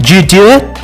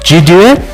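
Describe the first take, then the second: First: The words run together with sounds dropped. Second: The same.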